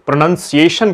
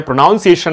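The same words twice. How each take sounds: First: Said in the usual way. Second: प्रोनाउंसिएशन with "noun" in the middle, pro-NOUN-ciation; second syllable of प्रोनाउंसिएशन rhymes with "town"; mispronounced प्रोनाउंसिएशन. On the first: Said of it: "ना होकर के प्रोनाउंसिएशन कहा जाता". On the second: Shown as a demonstration. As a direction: say प्रोनाउंसिएशन wrongly, as if built on "pronounce". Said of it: "जिसको बोलते हैं प्रोनाउंसिएशन ना होकर के".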